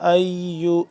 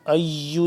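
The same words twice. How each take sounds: First: The word is pronounced softly and gently. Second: The word is pronounced harshly and forcefully. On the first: The speaker calls it right. "नरमी से" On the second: The speaker calls it wrong. "अय्यु नहीं करेंगे, सख्ती से नहीं पढ़ेंगे"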